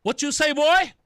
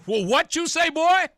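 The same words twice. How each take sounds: First: Confrontational challenge. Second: Laughing challenge. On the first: Reacting to played clip. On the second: Laughing reaction to clip. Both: Retold or imitated.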